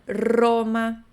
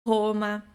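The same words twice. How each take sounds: First: The first R is a tongue-tip trill. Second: The first R is a guttural throat sound. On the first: The speaker calls it right. "Não, é Roma" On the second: The speaker calls it wrong. "Que nem a gente faz no português"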